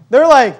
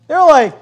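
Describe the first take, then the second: No difference in how they are said.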